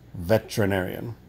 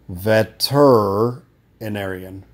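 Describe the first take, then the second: First: The word is said with the 'e' dropped, as 'vet-ri-narian'. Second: The word is said with four full syllables before 'narian', as 'vet-er-i-narian'. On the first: "If we don't want to say the E, then we just say veterinarian" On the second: "If we say the E, it sounds like this"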